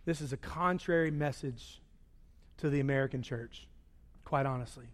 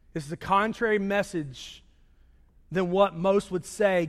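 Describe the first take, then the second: First: Hushed. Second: Said in the usual way. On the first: Acted. Hushed emphasis.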